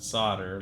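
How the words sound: The word is said the North American way. "not solder, like we say in North America"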